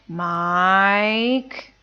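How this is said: The pitch falls and then rises. Getting ready to scold someone. "That's the third tone"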